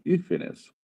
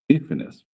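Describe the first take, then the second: First: High, soft, careful "hífenes"; "hífenes" spoken high and soft, each syllable clear; plural hífenes. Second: Said in the usual way. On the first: Shown as a demonstration. ("hífenes" dito agudo e suave, sílaba por sílaba) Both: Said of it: "nós temos outro pluralzinho".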